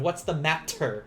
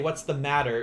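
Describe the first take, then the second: First: The middle consonant of matter sounds like T. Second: The middle consonant of matter sounds like D. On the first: "adding that T sound" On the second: "change it to like the D sound"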